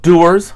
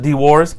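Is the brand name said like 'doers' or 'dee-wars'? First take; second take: doers; dee-wars. First: The name sounds like 'doers', with one vowel. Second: The name sounds like 'dee-wars', with two parts. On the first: This is how other people say it. "Some people call it Doers" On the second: This is the speaker's own way of saying it. "but I pronounce it D-Wars"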